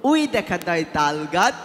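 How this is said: It is recited in a small child's voice. "ওই বাচ্চা এইভাবে আবৃত্তি করলো"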